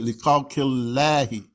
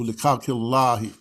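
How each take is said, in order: First: Slow khalqillahi with a thin, flat a in the Allah part; flattened Allah sound. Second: Khalqillahi with a full, deep a in the Allah part; full Allah sound. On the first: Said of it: "that's why I said". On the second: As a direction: round out the vowel of Allah in khalqillahi. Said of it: "as opposed to". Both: Shown as a demonstration.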